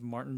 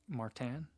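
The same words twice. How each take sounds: First: The name is pronounced with an English sound. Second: The name is pronounced with a French sound.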